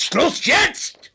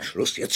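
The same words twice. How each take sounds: First: High, loud, furious shout; yelled command, voice leaping up; angry outburst. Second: Low, mostly voiceless cut-off; suppressed, tense command; tense warning. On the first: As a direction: explode to shut the questioner up. Cornered man explodes at questioner. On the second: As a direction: try to stop it before exploding. Cornered man tries to end questioning. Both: Acted.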